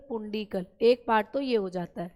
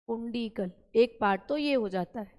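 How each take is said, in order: Both takes have the same delivery.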